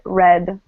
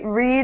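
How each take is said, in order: First: The vowel is short, rhyming with bed. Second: The vowel is long, rhyming with seed. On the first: The action happened in the past. "If this is past, we pronounce it red, like the color" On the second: The action happens now. "Read is present"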